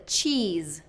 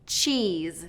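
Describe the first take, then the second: First: The vowel is a long E. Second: The vowel is a long E.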